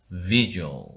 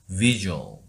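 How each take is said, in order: No difference in how they are said.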